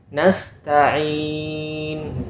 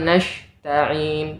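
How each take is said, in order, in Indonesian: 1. Huruf tengah itu bunyi s. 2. Huruf tengah itu bunyi sh. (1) "memakai huruf sin bukan huruf shin"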